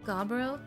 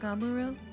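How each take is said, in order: First: The middle 'u' sound is dropped. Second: The middle 'u' sound is pronounced. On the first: "do they not pronounce the middle U? Is it just Gabro?" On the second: "Not Gaburo?"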